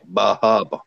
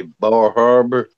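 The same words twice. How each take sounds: First: Bar Harbor again in Maine accent, bah HAH-buh. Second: Bar Harbor in a Maine accent, R dropped: bah HAH-buh. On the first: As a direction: Maine accent, both R's dropped. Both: Shown as a demonstration. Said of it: "what we would say".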